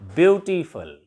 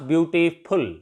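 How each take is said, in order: First: The last syllable has a short, reduced vowel. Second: The last syllable is a full 'full' sound. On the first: The speaker calls it right. "It becomes ब्यूटीफुल" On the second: The speaker calls it wrong. "Not"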